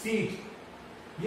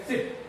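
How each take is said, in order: First: सीट said very slowly with a long held ee, breathy and much softer. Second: सिट with a clipped short i vowel. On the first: Teacher contrasts the long vowel in seat for students, soft. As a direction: stretch the ee in सीट out, almost whispered. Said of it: "ये है long ई". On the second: Teacher contrasts the short vowel in sit for students. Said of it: "ये short ई है सिट". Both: Shown as a demonstration.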